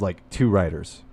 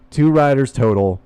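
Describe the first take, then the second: First: Said in the usual way. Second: "Two" pushed louder and held; stress on two. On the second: Real, not acted. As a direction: hit the word "Two".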